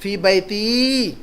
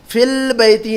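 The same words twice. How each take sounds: First: "फी बैती" drawn out slowly, no L; slow teacher's model of "फी बैती" without al; corrected form. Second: "फिल बैती" with a held L in fil; "फिल बैती" with the article's L sounded; common mistake. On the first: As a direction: say "फी बैती" as fii baytiii, final vowel stretched. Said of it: "फिल बैती नहीं कहेंगे". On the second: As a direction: say "फिल बैती" as fill-baytii, showing the error. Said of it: "अक्सर लोग इसमें गलती करते हैं". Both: Shown as a demonstration.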